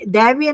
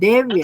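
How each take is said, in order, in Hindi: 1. पहला स्वर लंबी 'ai' ध्वनि है। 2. पहला स्वर सामान्य 'e' ध्वनि है। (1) "दैव्य नहीं" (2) "नहीं देव्य"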